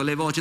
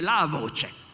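First: Said in the usual way. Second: Slow "la voce", weight on "la"; single out "la" in "la voce", slowly; stress on LA. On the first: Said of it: "io ho detto le voci". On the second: Shown as a demonstration. Lecturer quoting Giovanna's exact singular, stressed "la". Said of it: "no, lei dice la voce".

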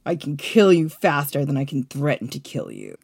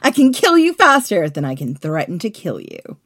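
First: Low, cold-blooded threat; cold and heartless. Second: Punched-up, louder threat; big theatrical warning. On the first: Shown as a demonstration. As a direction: sound like you might actually stab them. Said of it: "Try to sound a little bit cold and heartless, like you might actually stab me". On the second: Acted. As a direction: declare the threat loudly, falling away. Redoing Caesar's threat, before coaching.

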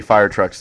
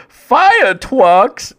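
First: Said in the usual way. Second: "Fire trucks" high and drawn out, r's turned to w; exaggerated w-for-r "Fire trucks"; imitated speech impediment. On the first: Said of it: "the pilot comes on and is like". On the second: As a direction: cry "Fire trucks" as an excited "fi-uh twucks". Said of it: "He hears one of the Special Olympics people go".

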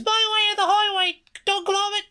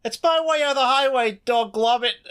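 First: Much higher, hammed-up British girl; squeaky mock British girl, nearly breaking; British girl accent. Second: Much higher, hammed-up British girl accent; squeaky mock British girl, breaking into laughter; little British girl. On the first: Host retrying the British girl line, much higher mock accent. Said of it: "a little too masculine for the character". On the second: Host attempting a British girl's line, high, mock British girl accent. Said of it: "trying to sound like a little British girl".

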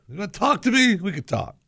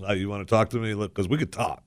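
First: Imitating a challenge, pitched high; mock confrontational, voice leaping up then dropping off; spoiling for a fight. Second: Low, soft, harmless-sounding quote; lawyerly understatement of a challenge; innocent retelling. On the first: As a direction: say it like you're inviting a fight. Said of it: "the inflection is, you know, th-, we're gonna fight". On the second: Retold or imitated. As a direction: play the threat down, lower and quieter. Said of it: "all you said was".

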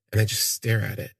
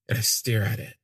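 First: Said in the usual way. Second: "stare" leaned on and falling; stress on stare. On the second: Shown as a demonstration. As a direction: land on "stare" and let it drop.

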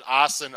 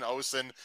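First: Osen said as AH-sen; open first vowel. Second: Osen said as OH-sen; long O. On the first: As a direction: say Osen with an "ah" at the start, like awesome. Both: Shown as a demonstration. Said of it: "how to pronounce your name".

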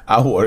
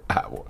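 First: Said in the usual way. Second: Breaking into a laugh mid-word; airy giggle through the word. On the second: Real, not acted. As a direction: laugh it out, words half gone. Laughs at own joke.

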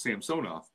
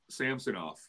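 First: Samsonov stressed on the middle syllable, sam-SO-nov, ending with an f sound; Russian pronunciation. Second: Samsonov with stress on the first syllable, SAM-so-nov; American pronunciation. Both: Shown as a demonstration. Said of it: "you're supposed to put the accent on the middle syllable".

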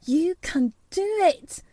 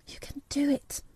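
First: High-pitched, fervent urging at normal volume; will him on with rising urgency; intense self-talk. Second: High, hushed urging under the breath; will him on softly, in secret; to herself. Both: A narrator's reading. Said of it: "said Mary to herself".

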